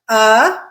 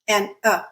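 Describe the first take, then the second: First: The vowel is stressed with a marked pitch movement. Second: The vowel is unstressed with a flat pitch. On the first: "the stressed version" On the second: "It's a flat sound"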